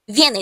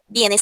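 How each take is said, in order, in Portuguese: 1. A palavra começa com som de v. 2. A palavra começa com som de b. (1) "se a gente falar em português" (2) "mas é bienes também, em espanhol"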